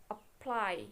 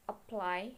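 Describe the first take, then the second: First: "apply" with PLY stressed and falling; stress on last syllable. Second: Said in the usual way. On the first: Shown as a demonstration. Teacher showing a strong last syllable, aPPLY stressed. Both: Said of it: "if the last syllable is strong, it is emphasis".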